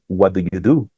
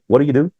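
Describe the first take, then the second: First: Each word is said fully and separately. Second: The words run together in reduced form. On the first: This is the textbook form. "allá afuera no te no vas a escuchar" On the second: This is how people really say it. "que es algo totalmente distinto ... allá afuera va a sonar así"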